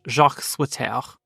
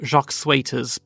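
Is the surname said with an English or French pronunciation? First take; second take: French; English. First: The surname is said with a French pronunciation. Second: The surname is said with an English pronunciation. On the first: The speaker calls it right. "but if that's more than likely French" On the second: The speaker calls it wrong. "I've always said"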